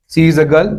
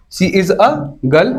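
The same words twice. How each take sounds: First: Said in the usual way. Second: Put-on she is a girl, each word drawn out, a stressed with a rise; slow, stress on a. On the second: Shown as a demonstration. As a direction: spell it out slowly for the class, leaning on a. (धीमे-धीमे, a पर ज़ोर देकर)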